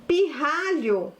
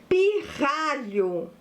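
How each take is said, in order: First: Said in the usual way. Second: "pirralho" said slowly, sound by sound; slow dictation. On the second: Shown as a demonstration. Teacher presents a new word to pupils, slow dictation.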